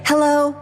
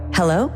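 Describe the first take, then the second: First: The voice is higher, tense and slightly fried. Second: The voice is lower, relaxed and full of breath. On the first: The speaker feels anxious. The speaker calls it wrong. "instead of" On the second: The speaker feels confident. The speaker calls it right. "I sound totally different"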